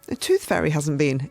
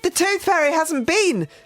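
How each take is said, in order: First: It is said in a disappointed voice. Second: It is said in an angry voice.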